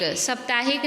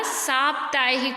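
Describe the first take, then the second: First: साप्ताहिक said as "sap-taahik"; short first vowel. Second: साप्ताहिक said as "saap-taahik"; long "saa" opening in साप्ताहिक. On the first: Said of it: "साप्ताहिक नहीं होता". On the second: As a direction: stretch सा at the start of साप्ताहिक. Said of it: "सा में आ की मात्रा". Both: Shown as a demonstration.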